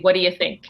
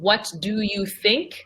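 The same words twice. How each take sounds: First: The first words run together in reduced form. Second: Each word is pronounced fully and clearly. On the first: The speaker calls it right. "I'm going to say" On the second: The speaker calls it wrong. "So I'm not going to say"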